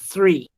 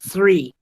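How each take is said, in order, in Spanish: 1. El primer sonido es soplado, con aire entre la lengua y los dientes. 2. El primer sonido es soplado, con aire entre la lengua y los dientes.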